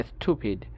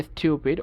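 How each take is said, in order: First: American স্টুপিড as STOO-pid; no Y glide in স্টুপিড; American pronunciation. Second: British স্টুপিড as STYOO-pid; Y glide in স্টুপিড; British pronunciation. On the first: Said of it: "ওরা বলে". (স্টুপিড-এ উ, American) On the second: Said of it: "ব্রিটিশরা বলে". (স্টুপিড-এ ইউ, British) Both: Shown as a demonstration.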